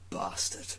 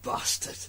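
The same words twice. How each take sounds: First: It is said in a posh upper-class English accent. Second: It is said forcefully in a northern Lancashire accent. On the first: "the upper class" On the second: "the powerful Lancashire bastard"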